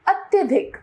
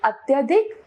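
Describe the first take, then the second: First: Said in the usual way. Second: अत्यधिक with a weakened dh; wrong pronunciation. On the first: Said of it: "इसका शुद्ध रूप". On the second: Shown as a demonstration. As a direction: say अत्यधिक as at-ya-dik. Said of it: "अशुद्ध रूप".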